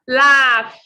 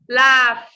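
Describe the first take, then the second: Both takes have the same delivery.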